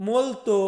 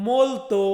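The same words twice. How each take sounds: Both takes have the same delivery.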